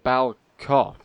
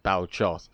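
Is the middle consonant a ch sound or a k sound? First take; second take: k sound; ch sound. First: The middle consonant is said as a k. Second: The middle consonant is said as a ch. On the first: The speaker calls it right. "the C H is intended to be pronounced like uh, like a K" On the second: The speaker calls it wrong. "it's not like a hard C H like I was saying it"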